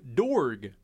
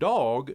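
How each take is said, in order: First: The word is said with an r sound. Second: The word is said without an r sound. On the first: This is how the earlier man always said it. "always pronounced the word dog, dorg" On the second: This is the ordinary pronunciation of the word. "pronounced the word dog"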